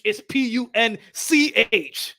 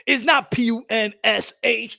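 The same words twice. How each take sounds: First: Slow, deliberate "P U N C H"; the right spelling, spelled out slowly; correct spelling. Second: Slow letter-by-letter spelling "P U N S H"; the wrong spelling, spelled out slowly. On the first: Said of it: "That's how you spell punch". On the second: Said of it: "Come on, Punch". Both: Shown as a demonstration.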